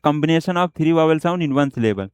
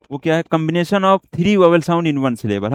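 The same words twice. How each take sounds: First: Slow dictation. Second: Said in the usual way. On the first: Shown as a demonstration. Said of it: "हम उसे बोल सकते हैं क्या".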